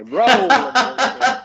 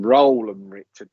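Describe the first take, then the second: First: Game show call. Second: Said in the usual way. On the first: Shown as a demonstration. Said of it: "I say". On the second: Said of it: "I say to him".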